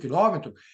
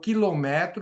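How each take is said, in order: First: The stress is on the third-to-last syllable. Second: The stress is on the second-to-last syllable. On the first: It is the noun for the distance unit. "ele tem um acento circunflexo, porque ele é uma proparoxítona" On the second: It is a conjugated form of a verb. "se eu não acentuar, eu estou criando uma outra palavra"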